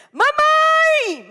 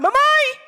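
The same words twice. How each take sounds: First: Very high, loud shout of mamãe; child's shout. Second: Put-on high, loud commanding child's call; a small boy shouting for his mother, bossy. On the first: Retold or imitated. Boy yelling for his mother from the kitchen door, very high and loud. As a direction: yell it like a furious little boy. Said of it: "e gritou". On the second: Preacher voicing a boy, shrill commanding call to mother. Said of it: "Bem autoritário".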